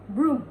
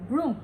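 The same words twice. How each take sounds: The two takes are said the same way.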